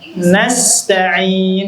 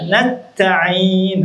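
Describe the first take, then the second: First: The s sound is kept before the t. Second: The s sound merges into a double t. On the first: The speaker calls it right. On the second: The speaker calls it wrong.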